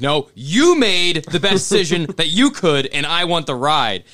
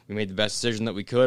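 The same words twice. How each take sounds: First: "you" punched high and loud both times; indignant stress on you. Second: Said in the usual way. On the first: Retold or imitated. Correcting brother over the decision, loud indignant stress on "you". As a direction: throw the blame back, hitting "you" hard. Retorts to brother, shifting the blame.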